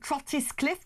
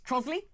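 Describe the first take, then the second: First: Trottiscliffe read out as spelt; pronounced as spelt. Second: Trosley in two syllables, TROZ-lee; Trosley, the contracted local name for Trottiscliffe; local pronunciation. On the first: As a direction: say Trottiscliffe in full, every written syllable. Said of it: "which is pronounced Trosley". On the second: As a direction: say Trosley short, with a z sound. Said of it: "which is pronounced". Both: Shown as a demonstration.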